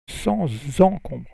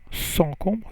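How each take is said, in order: First: The words are linked with a z sound. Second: The words are said separately without a z sound. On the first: The speaker calls it right. "you say ... Z" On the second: The speaker calls it wrong. "you don't say"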